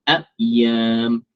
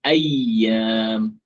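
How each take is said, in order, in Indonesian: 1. Tengahnya ada hentian glotal sebelum y. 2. Tengahnya bunyi y ganda yang ditahan. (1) "dia baca seolah-olah di sini ada hamzah" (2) "sepatutnya bunyinya uh, ia yang bersabdu"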